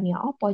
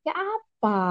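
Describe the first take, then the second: First: The second word is pronounced with 'o' vowels. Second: The second word is pronounced with 'a' vowels. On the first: This is the usual local Javanese form. "bukan ya opo" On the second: This is how Chinese-Indonesian speakers say it. "orang Tionghoanya itu bilangnya ... jadi ya apa"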